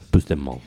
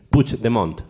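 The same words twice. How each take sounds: First: "Puigdemont" mal dicho, como "Pusdemón", sin ch ni t final; mala pronunciación catalana. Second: "Puigdemont" como "puch-de-mont", con t final; pronunciación catalana corregida. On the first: Real, not acted. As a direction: di "Puigdemont" como "pus-de-món". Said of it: "lo estás diciendo mal". ("Puigdemont" pronunciado mal, "Pusdemón") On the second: Shown as a demonstration. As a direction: di "Puigdemont" marcando la ch y la t. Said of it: "Demont, pero con la T". ("Puigdemont" con ch y t final audibles)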